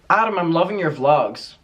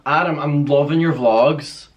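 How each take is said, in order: First: It sounds warm and genuinely positive. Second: It sounds sarcastic and negative.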